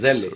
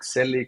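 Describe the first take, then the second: First: The name begins with a buzzing Z sound. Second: The name begins with a hissing S sound. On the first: The speaker calls it right. "with Z" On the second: The speaker calls it wrong. "Is like Selli correct?"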